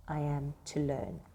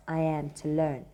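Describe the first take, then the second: First: I am to learn, slow and hushed; reflective pause. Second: I am to learn, after a long reflective pause; pause before it. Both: Shown as a demonstration. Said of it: "that space means that he's pausing for a while to".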